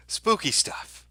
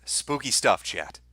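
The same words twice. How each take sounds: First: High ghostly warble, much higher; hammed-up spooky falsetto; mock spooky voice. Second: Said in the usual way. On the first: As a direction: ham it up like a ghost story.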